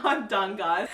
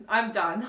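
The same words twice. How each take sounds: First: "I'm done" broken by a laugh; said through real laughter. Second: Said in the usual way. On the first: Real, not acted. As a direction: laugh it out as you give up. Giving up, laughing.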